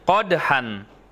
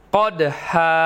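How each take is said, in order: First: The word ends with a short vowel plus n. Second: The word ends with a long vowel, no n. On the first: This is how it is written. "Tulisannya qadhan" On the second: This is how it is read when stopping. "Dibaca qadha. ... tanwinnya hilang"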